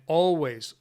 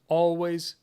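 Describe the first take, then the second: No difference in how they are said.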